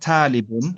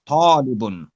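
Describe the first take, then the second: First: The first t is a plain, light t. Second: The first t is a heavy, emphatic t. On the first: The speaker calls it wrong. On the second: The speaker calls it right.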